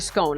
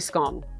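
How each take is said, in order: First: The vowel rhymes with the word bone. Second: The vowel does not rhyme with bone. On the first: "I only ever say scone. ... so rhymes with bone" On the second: "I never say scone"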